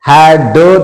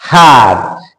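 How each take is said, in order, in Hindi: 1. अंतिम d साफ़ और अलग से, ज़ोर से बोला जाता है। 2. अंतिम d धीरे और हल्के से बोला जाता है। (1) "हैड ड तो नहीं बोल रहे" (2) "इसे धीरे बोल रहे हैं"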